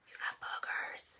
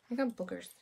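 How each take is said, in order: First: Much softer breathy whisper; hushed whisper close to the baby. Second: Said in the usual way. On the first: Acted. Repeats line to baby.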